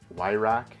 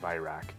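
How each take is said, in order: First: The name begins with a W sound. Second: The name begins with a V sound. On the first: The speaker calls it wrong. "a couple other guys that pronounce it Wyrock" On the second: The speaker calls it right. "with the German pronunciation would be with a V sound"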